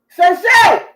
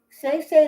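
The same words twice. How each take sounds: First: The name is barked like a drill sergeant. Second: The name is said in a normal calm tone.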